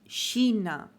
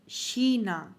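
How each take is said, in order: Both takes have the same delivery.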